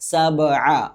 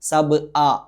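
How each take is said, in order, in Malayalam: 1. നടുവിലെ വ്യഞ്ജനം മൃദുവും ഒഴുക്കുള്ളതുമായ തൊണ്ടശബ്ദമാണ്. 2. നടുവിലെ വ്യഞ്ജനം മൂർച്ചയുള്ള ഗ്ലോട്ടൽ സ്റ്റോപ്പ് ആണ്. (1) "സബ് അ എന്ന് പാരായണം ചെയ്യണം" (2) "ഹംസ ഉച്ചരിക്കുന്നത് പോലെ"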